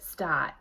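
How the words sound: The R sound after the vowel is dropped. "a newsie might say stot"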